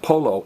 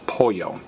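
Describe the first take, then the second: First: The middle consonant is an L sound. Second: The middle consonant is a Y sound. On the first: The speaker calls it wrong. "So it's not polo" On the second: The speaker calls it right. "the double L is pronounced as a Y"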